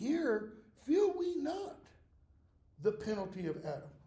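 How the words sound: The voice falls at the end, like a statement. It declares that we feel the penalty. The speaker calls it right. "that's a declaration. He's saying"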